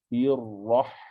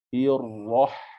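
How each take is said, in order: First: The h is sharp and strongly breathy. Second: The same.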